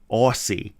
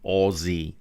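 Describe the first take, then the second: First: The first syllable is a long 'aw' with s. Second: The first syllable sounds like 'oz' with a z. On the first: This is how Americans say it. "Americans always seem to pronounce it Aussie, Aussie, like they have to put the A U in there" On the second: "We say Aussie, Aussie, as in [name] [name]"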